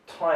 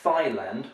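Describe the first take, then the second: First: It begins with a plain 't' sound, like 'tie'. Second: It begins with a 'th' sound, like 'thigh'. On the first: The speaker calls it right. "We say Thai" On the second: The speaker calls it wrong. "I've heard people pronounce this as Thailand, which is quite strange because that's your thigh"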